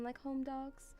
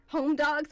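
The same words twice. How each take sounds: First: Said in the usual way. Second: "Home dogs" repeated much louder as a pun; punning repeat. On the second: Shown as a demonstration. Streamer repeats her pun for viewers, "Home dogs" louder. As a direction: punch "Home dogs" again as a joke. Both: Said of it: "see what I did there?".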